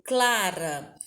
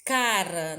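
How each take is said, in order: First: "Clara" with an L after the C; "Clara" opening on a clear "cla". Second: "cara" with no L after the C; "cara" opening on a simple "ca"; without the L. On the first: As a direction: say "Clara", sounding the L in the first syllable. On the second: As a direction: say "cara", leaving the L out. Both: Shown as a demonstration. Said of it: "Se eu tiro o L".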